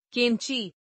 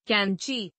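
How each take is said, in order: First: कैंची with narrow e, "kenchee"; mispronounced. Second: Said in the usual way. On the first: Shown as a demonstration. Teacher showing an e error, mispronounced with narrow e. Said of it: "अशुद्ध". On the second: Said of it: "शुद्ध".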